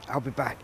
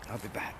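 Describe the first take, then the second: First: Said in the usual way. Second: Softer, lower repeat of "I'll be back"; a soft, lower "I'll be back" as he leaves; quiet. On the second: Real, not acted. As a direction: murmur "I'll be back" to yourself. Repeated to himself.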